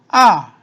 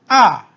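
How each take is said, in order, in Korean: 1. 음높이가 높은 데서 낮게 급하게 떨어져요. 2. 음높이가 높은 데서 낮게 급하게 떨어져요.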